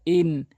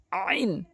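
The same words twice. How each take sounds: First: Said in the usual way. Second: আইন as "in" begun with a squeezed throat; slow আইন, pressed from the throat; pressed ayn. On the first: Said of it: "এটি চাপ দিয়ে". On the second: Shown as a demonstration. Teacher shows ayn, throat-pressed আইন. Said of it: "আইনটি চাপ দিয়ে উচ্চারণ করবেন".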